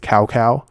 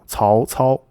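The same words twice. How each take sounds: First: It is said with flat English pronunciation. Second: It is said with rising then dipping tones. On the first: The speaker calls it wrong. "in the worst way you can say it" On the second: The speaker calls it right. "is how you would pronounce his name"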